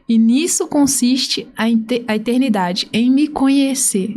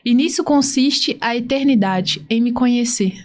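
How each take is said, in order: First: It is said slowly. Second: It is said at normal speed.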